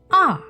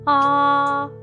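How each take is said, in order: First: The pitch falls sharply from high to low. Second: The pitch stays high and level. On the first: "Just let your voice go all the way down" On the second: "you must keep your voice high and flat"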